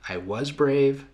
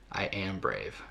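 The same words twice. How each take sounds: First: "I was brave" higher, held up at the end; raised first half of an affirmation; rising affirmation. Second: "I am brave" soft, dropping to a close; hushed, conclusive second half of an affirmation; settled affirmation. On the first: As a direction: lift "I was brave" and leave it open. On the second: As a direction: let "I am brave" land quietly and finally. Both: Shown as a demonstration.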